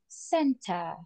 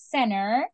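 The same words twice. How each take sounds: First: It is said in a British accent. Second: It is said in an American accent. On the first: "In British English, it would be like center" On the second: "in American English is center"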